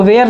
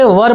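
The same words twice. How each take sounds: First: वेयर said as "wair", the wrong way to read were; wrong pronunciation. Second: वर said short as "wur", the right way to read were; correct pronunciation. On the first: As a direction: say वेयर like the word where. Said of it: "इसको वेयर नहीं पढ़ेंगे". (गलत उच्चारण "वेयर") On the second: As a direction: say वर with a short clipped vowel. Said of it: "इसको वेयर नहीं पढ़ेंगे, वर पढ़ेंगे". (सही उच्चारण "वर") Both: Shown as a demonstration.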